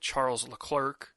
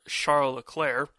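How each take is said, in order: First: The name is said with an English accent. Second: The name is said with a French accent.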